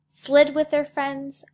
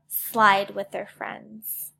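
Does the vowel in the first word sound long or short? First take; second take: short; long. First: The vowel is short, like in slid. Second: The vowel is long, like in slide. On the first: The speaker calls it wrong. "Which one sounds better?" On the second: The speaker calls it right. "Slide looks right, sounds right, and makes sense"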